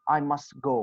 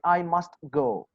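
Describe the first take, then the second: First: The t sound in must is dropped. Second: The t sound in must is pronounced. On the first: The speaker calls it right. "You say I must go. Why? Because T is coming between two consonant sounds" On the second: The speaker calls it wrong. "You do not say I must go"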